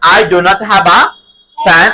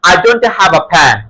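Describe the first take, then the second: First: Do and not are said as two separate words. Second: Do and not are shortened into one quick word.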